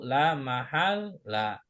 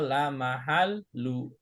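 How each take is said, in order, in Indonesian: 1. Kata itu diakhiri vokal a. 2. Kata itu diakhiri vokal u. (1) "harokat cuma satu" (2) "nggak boleh dibaca"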